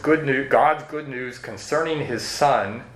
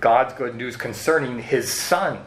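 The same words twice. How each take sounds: First: The word 'his' carries no special emphasis. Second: The word 'his' carries strong emphasis.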